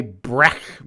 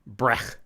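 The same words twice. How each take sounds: First: "brech" said as "brek", hard k ending. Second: "Brech" with a throaty ch like German ach; brech with Yiddish ch. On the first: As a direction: say "brech" ending in a plain k sound. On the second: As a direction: end "Brech" on a raspy throat ch, softly rising. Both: Shown as a demonstration. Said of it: "I'm probably mispronouncing that anyway".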